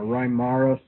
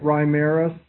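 First: "Reimarus" with open "ah" in the middle; alternative pronunciation. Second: "Reimarus" with middle vowel as in "air"; alternative pronunciation. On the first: Lecturer correcting himself on the name, "Reimarus" as rye-MAR-us. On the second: Lecturer offering students one way to say the name, "Reimarus" as rye-MAIR-us. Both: Shown as a demonstration. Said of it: "however you want to say it".

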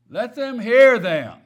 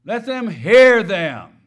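First: "hear" punched louder and higher; emphasize "hear" with a loud lift; stress on hear. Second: "hear" drawn out, very loud; slow down and hammer the word "hear"; heavy stress on hear. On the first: Real, not acted. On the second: Shown as a demonstration. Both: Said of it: "I emphasize that word hear".

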